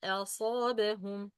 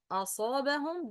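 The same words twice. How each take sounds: First: أصابهم begun with a thin, fronted "a", then heavy ص; light hamza. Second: أصابهم opened with a dark, backed "aw"-like أ; heavy hamza mistake. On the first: Teacher modelling the corrected word, light أ in أصابهم. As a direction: keep the opening أ of أصابهم light, as in "cat". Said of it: "But a, a, a". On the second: Teacher demonstrating the common mistake, heavy أ in أصابهم. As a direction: make the first أ of أصابهم as heavy as the ص. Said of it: "that's wrong". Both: Shown as a demonstration.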